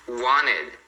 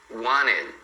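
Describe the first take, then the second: Both takes have the same delivery.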